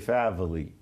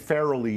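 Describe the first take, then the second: First: The middle consonant is a V sound. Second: The middle consonant is an R sound. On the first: "the R's are V's" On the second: "Instead of saying Farrelly"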